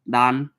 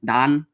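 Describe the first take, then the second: First: The word starts with a sound between L and R. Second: The word starts with a sound between L and R.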